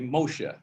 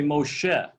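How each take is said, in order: First: It is said with a Yiddish pronunciation. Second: It is said with a Hebrew pronunciation. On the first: This is the everyday way the name is said. The speaker calls it wrong. "you don't say Moshe" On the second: This is how the name is read from the Torah. The speaker calls it right. "You say Moshe"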